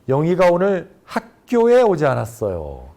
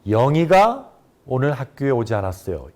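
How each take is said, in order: First: The stress falls on the word 학교에. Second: The stress falls on the word 영희가. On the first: She went somewhere other than school. "학교에를 강조하게 되면" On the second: It was this person, not someone else, who didn't come. "영희가에 강세를 줘서 발음"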